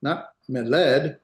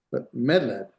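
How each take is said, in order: First: "meled" with the accent wrongly on the last syllable, led; slow "meled", punching the final led; stress on LED. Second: "meled" accented on me, led falling away; stress on first syllable. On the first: Teacher showing students the wrong accent, "meled" stressed on led. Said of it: "Hear the difference?". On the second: Teacher correcting for students, "meled" stressed on its first syllable. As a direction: hit the opening me of "meled". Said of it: "accent here". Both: Shown as a demonstration.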